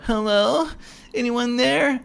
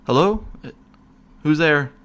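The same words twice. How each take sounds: First: Much higher, sing-song clueless call; naive teenager. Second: Raised, higher call into the dark. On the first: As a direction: play the dumb horror-film teen. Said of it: "stupid, idiotic teenager that goes down there like". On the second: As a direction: call out into the empty cell. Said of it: "I'm calling out to him". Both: Retold or imitated.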